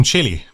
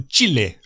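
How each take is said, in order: First: "Chile" said English-style as CHIL-ee. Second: "Chile" said the Spanish way as CHEE-leh. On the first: Unsure how to say the country, so the English way. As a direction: say "Chile" like chilly. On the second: The Spanish way for his viewers. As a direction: end "Chile" on a clear "eh". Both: Shown as a demonstration. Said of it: "I don't know how it's pronounced".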